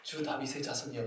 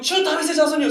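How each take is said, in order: First: Soft, low, composed murmur; casual over tea. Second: High-pitched yell at someone's back; imitated sudden shout. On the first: Retold or imitated. Woman imagined having tea with Jesus, softly composed. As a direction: say it quietly, as if sipping tea. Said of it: "갑자기 차 한잔하면서". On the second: Woman yelling at the back of Jesus's head, sudden high shout. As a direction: burst out calling after him. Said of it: "소리치는 거예요".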